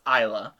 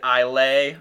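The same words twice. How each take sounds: First: Isla said as EYE-luh; Isla as EYE-luh, first syllable stressed; correct pronunciation. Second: Islay said as EYE-lay; Islay ending like "lay"; wrong pronunciation. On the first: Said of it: "It's actually pronounced Isla". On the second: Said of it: "pronounced it Islay". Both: Shown as a demonstration.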